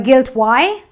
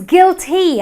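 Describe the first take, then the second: First: The word ends in a different vowel. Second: The word ends in a long 'ee' sound. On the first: The speaker calls it wrong. "or a guilt Y" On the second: The speaker calls it right. "the Y at the end of the word also gives me the long E sound"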